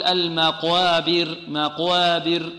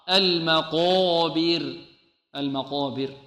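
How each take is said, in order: First: "المقابر" with a light, thin long "aa" after qaf; thinned alif. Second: "المقابر" with a dark, rounded long "qaw"; heavy alif. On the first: Teacher imitating students' mistake, slow "المقابر" with thin alif. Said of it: "يرقق الألف بعد القاف يقول". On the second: Teacher correcting the students' mistake, "المقابر" with heavy drawn-out "qaw". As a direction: keep the alif of "المقابر" heavy after the qaf. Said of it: "خطأ". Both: Shown as a demonstration.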